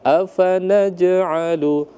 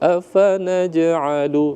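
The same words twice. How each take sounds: No difference in how they are said.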